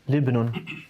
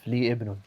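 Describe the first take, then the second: First: The two words run together without the vowel. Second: The vowel at the second word's start is sounded. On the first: The speaker calls it wrong. "if you say Libnun, it almost sounds like for a son" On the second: The speaker calls it right. "So you'd have to say the alif"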